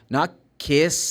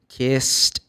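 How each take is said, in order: First: The word does not end in a plain t. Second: The word ends in a plain t sound. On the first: The speaker calls it wrong. "No, not kissed" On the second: The speaker calls it right. "like K I S T"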